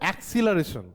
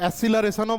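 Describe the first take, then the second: First: The word has a 'ks' sound after the first vowel. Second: The word has a plain 's' sound after the first vowel. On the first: "যেমন হচ্ছে অ্যাক্সিলারেশন" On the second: "অনেকে উচ্চারণ করে অ্যাসিলারেশনও বলে"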